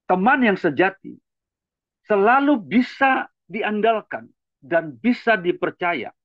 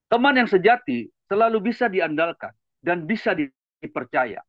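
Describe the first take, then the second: First: It is read slowly and deliberately. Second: It is read at a normal speed.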